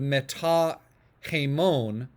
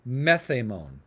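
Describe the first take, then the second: First: Meta keeps its vowel and plain t sound. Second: The vowel drops and t becomes th. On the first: The speaker calls it wrong. "instead of meta hemon" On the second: The speaker calls it right. "you would say methamon"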